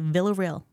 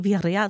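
First: The name is said with English sounds. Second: The name is said in Spanish, starting with V. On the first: This is how people in the military say it. "so they say Villarreal" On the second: This is the speaker's own family pronunciation. "they can't say Villarreal"

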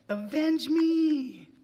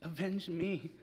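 First: It is yelled loudly. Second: It is said softly, in the son's voice.

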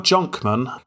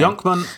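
First: The name begins with a 'j' sound. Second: The name begins with a 'y' sound. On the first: This may be how Americans pronounce it. "they pronounce things differently over there, so it could be Jonkman" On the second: This is the speaker's own pronunciation. "Yonkman is how I pronounce it"

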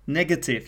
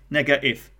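First: The middle t is pronounced as a clear t. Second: The middle t is replaced by a glottal stop.

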